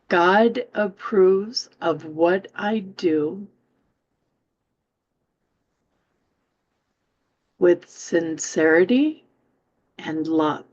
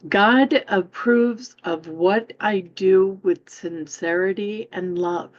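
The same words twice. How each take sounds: First: It is read more slowly. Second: It is read at a normal pace.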